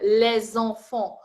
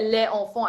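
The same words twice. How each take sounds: First: The s sound links onto the start of enfants. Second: The words are said separately, without a linking s. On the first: The speaker calls it right. "I will attach the S with the beginning of the word" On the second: The speaker calls it wrong. "I don't say les enfants"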